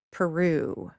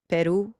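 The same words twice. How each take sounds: First: PERU as puh-ROOO, falling on a long second syllable; anglicized Peru, weak first vowel; English stress. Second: PERU as short PEH-roo with a tapped r, rising; quick, even Peru, as in its own language; unanglicized Peru; original-language stress. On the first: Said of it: "Notice how much longer it lasts". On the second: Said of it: "we might give it a different stress". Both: Shown as a demonstration.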